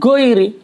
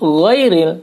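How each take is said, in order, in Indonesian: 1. Konsonan pertama adalah g biasa yang keras. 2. Konsonan pertama adalah gh yang serak di tenggorokan. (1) "bukan goiri"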